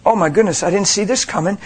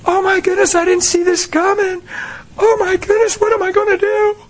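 First: Calm, unbothered tone. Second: High, panicky wail; panicked mock fret. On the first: Retold or imitated. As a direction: say it without panic. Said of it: "and go". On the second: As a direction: act out a frantic believer. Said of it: "here's what Christians do".

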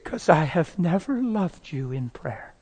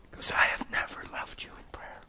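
First: Slow, softer confession; hushed, drawn-out admission; retold tearful confession. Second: Whispered confession; barely voiced, solemn whisper; hushed repetition. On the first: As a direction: confess it slowly and softly. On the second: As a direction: whisper it, letting it sink in. Confession repeated after long pause.

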